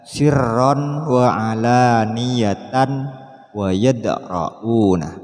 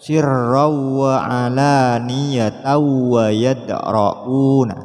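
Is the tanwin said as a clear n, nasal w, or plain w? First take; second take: clear n; plain w. First: The tanwin is said as a clear n sound. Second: The tanwin merges into a w without nasalization. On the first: "Tidak boleh dibaca" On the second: "Juga tidak boleh"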